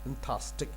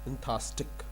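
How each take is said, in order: First: The middle syllables are dropped from the word. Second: The middle syllables are dropped from the word.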